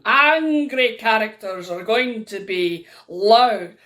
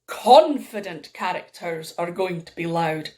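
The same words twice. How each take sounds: First: Slow, loud, forceful demo; drawn-out mock anger, loud; angry character. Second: Firm, assured storyteller's demo; steady, confident delivery; confident character. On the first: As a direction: bark it as an angry story character. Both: Shown as a demonstration.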